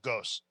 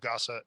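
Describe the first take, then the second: First: The word ends on a consonant sound. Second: The word ends on an added vowel sound. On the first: The speaker calls it wrong. "Traditionally, I would always pronounce it as" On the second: The speaker calls it right. "that uh is supposed to be at the end of it"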